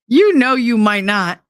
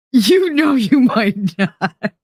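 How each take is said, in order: First: Said in the usual way. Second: Slow, laughing it out; teasing chat she might not, laughing slowly. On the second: Shown as a demonstration. Repeats the line with a laugh, slow.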